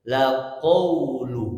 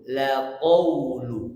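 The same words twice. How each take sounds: No difference in how they are said.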